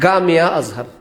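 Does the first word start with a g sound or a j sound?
g sound. The first word starts with a hard g sound. This is the local Egyptian form.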